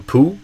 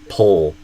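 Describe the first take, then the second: First: The word ends in an oo vowel, no L. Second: The word ends in a dark, back L sound. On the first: The speaker calls it wrong. "or poo" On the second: The speaker calls it right. "but pull"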